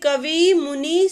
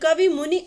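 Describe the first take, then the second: First: The final vowels are long. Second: The final vowels are short. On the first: The speaker calls it wrong. "ये अशुद्ध उच्चारण है ... बड़ी ई बोलते हैं" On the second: The speaker calls it right. "शुद्ध रूप में कर रहे हैं तो इस तरह से बोलें"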